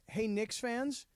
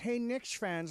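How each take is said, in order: First: It is said in the speaker's normal voice. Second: It is said in an imitated, put-on voice.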